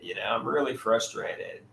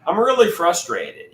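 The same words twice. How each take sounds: First: Softer, sinking repeat of the complaint; the same complaint said again, deflated and quiet; quieter frustration. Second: Louder, stress on really, venting real frustration; frustrated. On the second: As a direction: let the frustration push it out, loud on "really". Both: Real, not acted.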